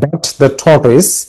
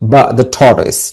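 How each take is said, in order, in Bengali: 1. 'but' শব্দের শেষের t উচ্চারণ করা হয়। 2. 'but' শব্দের শেষের t বাদ যায়। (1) "আমরা বলি না বাট দ্য টর্টয়েস" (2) "যারা নেটিভ স্পিকার তারা এটা কিভাবে উচ্চারণ করে জানো? বা দ্য টর্টয়েস"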